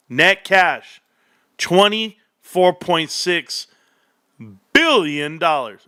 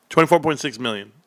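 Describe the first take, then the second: First: Slow, drawn-out villain reveal; lightly voiced Dr. Evil announcing a sum; Austin Powers. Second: Said in the usual way. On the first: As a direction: savor the number like Dr. Evil. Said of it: "I sound like, like, um, Austin Powers". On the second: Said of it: "Or million, I'm so sorry".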